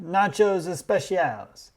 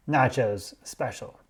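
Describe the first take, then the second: First: "Nachos especiales" said slowly and higher, as the proud maitre d'; quoting the maitre d'. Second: Said in the usual way. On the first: Retold or imitated. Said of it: "He said".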